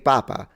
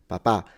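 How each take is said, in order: First: The stress is on the first syllable. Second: The stress is on the last syllable. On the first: It means the Pope. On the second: It means dad.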